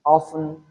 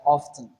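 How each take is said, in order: First: Often as OFF-un, T left out; without T sound. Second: Often as OFF-tun, T audible; with T sound. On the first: Teacher showing the optional sound dropped, often without T. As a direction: say often with the T silent. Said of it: "pronounce this word without the T sound". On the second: Teacher showing the optional sound kept, often with T. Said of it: "pronounce it with the T sound". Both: Shown as a demonstration.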